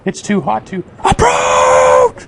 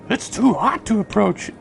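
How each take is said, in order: First: It is read loudly, with exclamatory energy. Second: It is read flatly, without exclamation.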